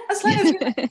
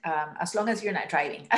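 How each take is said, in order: First: High, loud laughing repeat. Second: Said in the usual way. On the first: Real, not acted. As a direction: laugh through the words.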